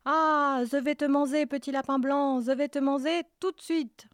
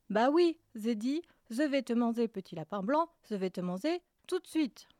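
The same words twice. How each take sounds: First: High loud shout, manger lisped as manzé. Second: Manger lisped as manzé, calmer repeat. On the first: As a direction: roar it, and say manger with a z for the j. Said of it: "Le loup bondit en criant". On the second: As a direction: say manger with a z instead of j, plainly. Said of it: "tu as un cheveu sur la langue". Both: Acted.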